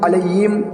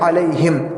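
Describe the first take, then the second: First: The middle consonant becomes a y sound. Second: The middle consonant is a light plain h. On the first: The speaker calls it wrong. "हा को या से बदल देते हैं" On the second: The speaker calls it right. "बल्कि अलैहिम"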